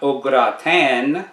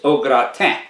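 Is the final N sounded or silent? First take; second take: sounded; silent. First: The final N is clearly pronounced. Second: The final N is silent. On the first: The speaker calls it wrong. "So it's not au gratin" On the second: The speaker calls it right. "it's au gratin. ... the N on the end of T I N is silent"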